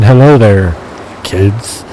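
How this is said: There is a pause before kids.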